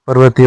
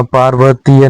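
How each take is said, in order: First: पर्वतीय with short first a; correct form. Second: पार्वतीय with long first aa; wrong form. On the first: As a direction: open पर्वतीय on a brief par. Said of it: "होता है". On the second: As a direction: open पार्वतीय on paar. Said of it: "नहीं होता". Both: Shown as a demonstration.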